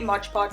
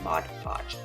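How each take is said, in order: First: It is said quickly, with the sounds run together. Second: It is said carefully, with each syllable enunciated. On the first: The speaker calls it wrong. "if I say it really quickly and it comes out like that" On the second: The speaker calls it right. "enunciate the mod in the podge"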